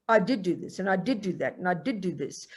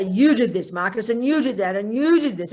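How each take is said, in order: First: Mild guilt-ridden mutter; guilty brooding. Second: Louder, accusing jabs at each "you"; accusing Marcus, louder and hammering each "you"; mad at Marcus. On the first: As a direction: list your misdeeds to yourself with a heavy heart. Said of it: "With guilt, you look in the past and you go". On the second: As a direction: scold him point by point. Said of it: "if I'm mad at Marcus". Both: Retold or imitated.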